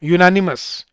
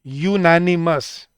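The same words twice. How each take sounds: First: Said in the usual way. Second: "यूनानिमस" said very slowly with the y glide stressed; stretched "यूनानिमस". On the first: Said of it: "जैसे मैं बोलता हूँ". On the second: Shown as a demonstration. Teacher slowing the word for students. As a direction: draw it out to show the y sound. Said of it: "यू, य की sound आ रही है".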